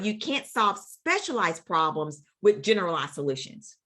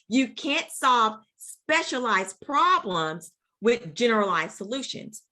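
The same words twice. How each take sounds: First: The sentence is said at normal loudness. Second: The sentence is said noticeably louder.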